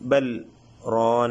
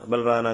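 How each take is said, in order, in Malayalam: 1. ആദ്യ വാക്കിന് ശേഷം ചെറിയ നിശ്ശബ്ദമായ ഇടവേളയുണ്ട്. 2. രണ്ട് വാക്കുകളും ഇടവേളയില്ലാതെ ഒന്നിച്ച് ചേർന്നാണ് വരുന്നത്. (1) "അങ്ങനെ സക്ത ചെയ്ത് ഓതുന്നതാണ്" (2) "അങ്ങനെ ഓതാതെ"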